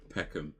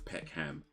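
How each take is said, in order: First: London accent, with the sounds mushed together. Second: American accent, with more of the letters pronounced. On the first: "if you're from London, you just say Peck, you say Peckham" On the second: "Americans might say um, Peckham... They would pronounce it as Peckham"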